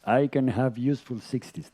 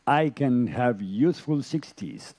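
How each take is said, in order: First: Said in the usual way. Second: Slow, deliberate affirmation. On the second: Shown as a demonstration. Yoga teacher showing a realistic wish, slow and deliberate. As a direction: say it slowly as a wish you mean. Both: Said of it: "I can ask and repeat".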